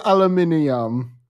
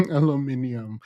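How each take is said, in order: First: Aluminium with five syllables, al-u-MIN-i-um; Jamaican pronunciation. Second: Aluminium said again softly through a laugh; laughing repeat. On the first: Joking with Jamaican viewers, says aluminium with the extra syllable. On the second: Joking with Jamaican viewers, repeats aluminium laughing softly. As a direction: laugh while saying aluminium. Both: Shown as a demonstration. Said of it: "Jamaicans always adding random syllables".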